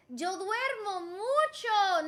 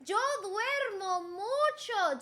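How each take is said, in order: First: Slow, drawn-out model sentence; slow lesson demo. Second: Slow, drawn-out model sentence, repeated; slow lesson demo. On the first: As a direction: teach it slowly. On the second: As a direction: repeat it slowly. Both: Shown as a demonstration. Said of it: "make a sentence".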